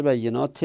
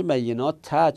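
First: "بینات ت" ending in -te; kasra ending. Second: "بینات ت" ending in -ta; fatha ending. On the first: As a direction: say "بینات ت" as bayyenaate. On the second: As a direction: say "بینات ت" as bayyenaata. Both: Shown as a demonstration. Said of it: "این فتحش به کسره".

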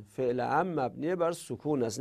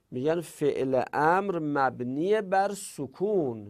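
First: Said in the usual way. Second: Slow, deliberate rule; slow rule statement. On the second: Shown as a demonstration. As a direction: lay the rule down word by word.

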